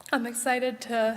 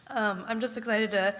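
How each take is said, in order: First: Choked up. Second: Said in the usual way. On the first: Real, not acted. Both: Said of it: "I did not know I was gonna get emotional".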